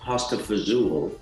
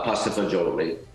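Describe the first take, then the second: First: The last word is shortened, ending 'zool'. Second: The last word is fully pronounced, ending 'jo-lee'. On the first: The speaker calls it wrong. "known as pasta fazool in uh, in in America" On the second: The speaker calls it right. "in the proper Italian"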